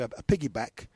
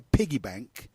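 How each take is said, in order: First: Corrects to "piggyback", a little fast after a stumble; quick self-correction. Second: Says "piggy bank" by mistake, plain and even; the wrong word said without noticing it yet; slip of the tongue. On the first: Putting right his slip to the listener, quick correction. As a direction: fix the slip briskly. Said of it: "Uh, I'm sorry". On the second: Telling a friend he isn't carrying him, he slips. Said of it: "Uh, I'm sorry, a, a piggyback". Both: Real, not acted.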